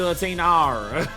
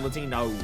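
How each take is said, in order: First: The final O is strongly and long drawn out. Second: The final O is only lightly drawn out. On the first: "very like very strongly, way stronger than I say it"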